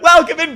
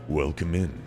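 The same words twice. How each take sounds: First: It is said in a high-pitched, excited voice. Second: It is said in a deep, calm voice. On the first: "my voice is drastically higher pitched when streaming" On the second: "That's my normal talking voice"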